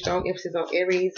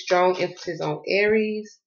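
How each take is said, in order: First: Said in the usual way. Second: Slow, weighted Aries; stress on Aries. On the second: Shown as a demonstration. Reader to viewers, slowing to stress Aries. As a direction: lean on Aries slowly.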